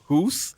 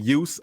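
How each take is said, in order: First: The name is said with a German pronunciation. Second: The name is said with an American pronunciation. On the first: "I know how to pronounce it in the German way" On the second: "Americans say use"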